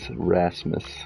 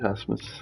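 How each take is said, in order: First: The name begins with an English R sound. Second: The name begins with a breathy H sound. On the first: The speaker calls it right. "Say it again with the R" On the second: The speaker calls it wrong. "R at the beginning of a word is pronounced like an H"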